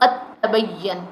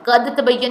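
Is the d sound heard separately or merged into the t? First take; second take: merged; separate. First: The d merges fully into a doubled t. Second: The d is pronounced separately with a bounce. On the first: The speaker calls it right. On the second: The speaker calls it wrong.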